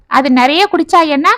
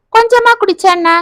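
First: Said in the usual way. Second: கொஞ்சமா said much higher as a challenge; pitch jump on கொஞ்சமா. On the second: Acted. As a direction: throw கொஞ்சமா up high, incredulous. Contrasting much versus little.

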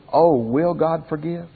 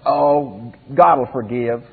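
First: Slow, humble, searching question; pleading. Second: Offhand, taking forgiveness for granted; presumptuous. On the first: Preacher voicing repentant people before God, slow and humble. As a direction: ask it slowly, truly unsure of mercy. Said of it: "the attitude of the other people". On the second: Preacher voicing the careless worshippers, presumptuous and offhand. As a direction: toss it off as if forgiveness is automatic. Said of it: "The attitude of one was". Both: Shown as a demonstration.

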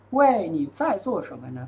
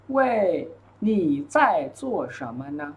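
First: Said in the usual way. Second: Word by word, with small gaps; slow model reading. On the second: Shown as a demonstration. Teacher modelling a dialogue line for students, slowly. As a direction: stretch each syllable for learners.

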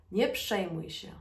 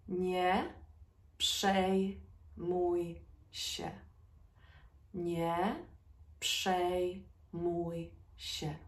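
First: Said in the usual way. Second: Broken into slow syllables; word by word teaching pace. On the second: Shown as a demonstration. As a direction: say each syllable apart, slowly. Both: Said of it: "Say it with me".

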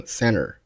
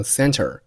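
First: "center" said as "cenner", no t after the n; American-style "center" with nt softened to n; American dropped T. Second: Said in the usual way. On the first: Shown as a demonstration. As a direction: drop the t in "center". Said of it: "很多美国人就会读成". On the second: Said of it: "通常可以不用爆出来".

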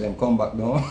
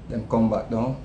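First: Low, soft mock nudge from the wife; a hint of the wife gently pulling him back; calm wife's nudge. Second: Low, soft mock nudge from the wife; lightly voiced wife calling him back to earth; calm wife's nudge. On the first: Wife catches him staring into space, low and soft. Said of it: "She said". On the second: Wife taps his shoulder to snap him out of it, low and soft. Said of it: "She just tap me on my shoulder and say".

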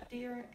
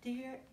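Both takes have the same delivery.

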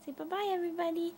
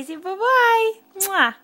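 First: Said in the usual way. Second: Higher and louder sing-song prompt; cheery loud goodbye. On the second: Real, not acted. Mom cheering toddler to say bye.

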